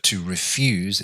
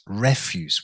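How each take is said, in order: First: The stress is on the second syllable. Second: The stress is on the first syllable.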